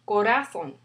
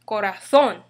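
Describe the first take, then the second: First: The stress is on the second-to-last syllable. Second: The stress is on the last syllable. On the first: The speaker calls it wrong. "Second to the last, according to the rule number one" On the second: The speaker calls it right. "in reality, we pronounce it as corazón"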